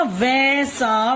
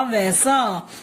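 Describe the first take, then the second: First: वैसा stretched slowly as वै-सा; syllable-by-syllable. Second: Said in the usual way. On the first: Shown as a demonstration. Teacher giving an example word, syllable by syllable. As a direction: sound out वैसा in two long parts. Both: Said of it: "हम बोलते हैं ना".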